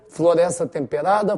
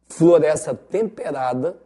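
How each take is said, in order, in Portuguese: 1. É dita em velocidade normal. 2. É dita devagar e de forma pausada.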